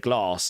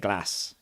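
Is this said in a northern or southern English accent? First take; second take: southern; northern. First: It is said with a southern English accent. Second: It is said with a northern English accent. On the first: "And I'd say glass" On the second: "They say glass"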